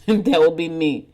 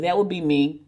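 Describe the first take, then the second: First: Laughing. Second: Said in the usual way. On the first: Real, not acted.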